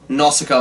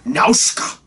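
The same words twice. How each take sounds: First: The name is said with an English pronunciation. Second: The name is said with a Japanese pronunciation.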